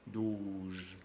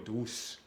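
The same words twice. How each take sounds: First: The consonant is a buzzing z sound. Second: The consonant is a hissing s sound. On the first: The word means twelve. The speaker calls it right. "es doce" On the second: The word means soft or sweet. The speaker calls it wrong.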